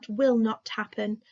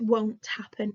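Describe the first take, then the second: First: The negative is said as two full words. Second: The negative is said as one contracted word. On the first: This is the formal way to say it. "in my formal voice" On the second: This is the informal way to say it. "in my informal voice"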